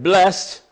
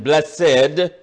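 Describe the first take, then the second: First: The word is said with one syllable. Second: The word is said with two syllables.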